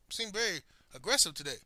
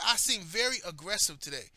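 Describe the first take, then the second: First: Said in the usual way. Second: Indignantly repeating the accusation; incredulous echo. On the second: Retold or imitated. Telling how a coworker accused him, incredulous echo. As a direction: echo it back in mild disbelief. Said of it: "This motherfucker said".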